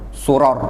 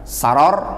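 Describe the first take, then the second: First: The first vowel is a u sound. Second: The first vowel is an a sound. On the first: "atau mendhammah sinnya tadi" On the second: "Bisa dengan memfathah sin"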